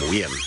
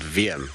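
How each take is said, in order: First: The name begins with a w sound. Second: The name begins with a v sound. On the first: The speaker calls it wrong. "you'd have to call him Wiem" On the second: The speaker calls it right. "we used to have a cameraman here called Wiem"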